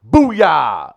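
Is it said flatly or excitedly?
excitedly. It is said with excited energy.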